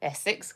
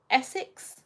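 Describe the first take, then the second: First: ESSEX said low and soft as confirmation; low, soft confirming echo of Essex. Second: ESSEX lifted as a question; tentative rising query on Essex; checking question. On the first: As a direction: repeat "Essex" quietly and much lower, settled. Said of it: "getting the nod". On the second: Checking where he is from. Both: Real, not acted.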